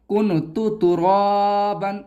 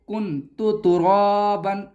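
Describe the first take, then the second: No difference in how they are said.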